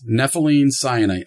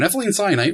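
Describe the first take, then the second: First: The words are said slowly. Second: The words are said fast.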